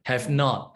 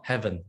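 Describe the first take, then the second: First: Said in the usual way. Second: "haven't" said as one contracted word, hɛvən; contracted form. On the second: Shown as a demonstration. Teacher shows students the contraction, saying "haven't" as one word. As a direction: squeeze "haven't" into a single short word. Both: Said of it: "Or haven't, have not, haven't".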